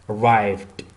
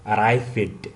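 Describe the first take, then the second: First: The ending is a bare d sound. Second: The ending is said as an extra syllable. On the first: The speaker calls it right. "at the end is D" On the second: The speaker calls it wrong. "it's not ed. It's not like arrived"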